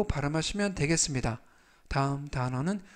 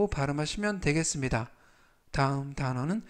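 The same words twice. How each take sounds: The two takes are said the same way.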